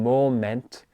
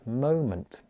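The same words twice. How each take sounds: First: The final syllable has a full eh vowel. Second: The final syllable has a reduced schwa vowel. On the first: The speaker calls it wrong. "I'm not saying moment" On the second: The speaker calls it right. "I'm using a schwa sound"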